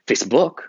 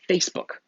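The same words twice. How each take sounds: First: The stress is on the second syllable. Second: The stress is on the first syllable. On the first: The speaker calls it wrong. "You don't say Facebook" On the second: The speaker calls it right. "you say the first syllable harder. You say Facebook"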